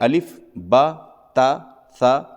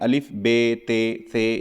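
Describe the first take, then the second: First: The letter names end in an 'a' vowel. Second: The letter names end in an 'e' vowel. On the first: The speaker calls it right. "सही तरीक़ा ये है" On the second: The speaker calls it wrong. "ये गलत तरीक़ा है"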